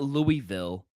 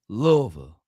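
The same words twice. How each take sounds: First: It is said in a standard, non-local way. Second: It is said in a local Kentucky accent. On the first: The speaker calls it wrong. "It's not Louisville" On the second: The speaker calls it right. "it's Louisville. You gotta say it with the with the the accent"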